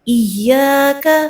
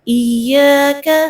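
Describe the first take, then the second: Both takes have the same delivery.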